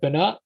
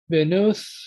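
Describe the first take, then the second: First: The last vowel is an 'ah' sound. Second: The last vowel is an 'oo' sound. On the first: "traditional pronunciation instead of u would probably be a o or a a" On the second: "I'm using the u pronunciation"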